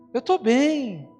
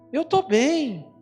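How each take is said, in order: Both takes have the same delivery.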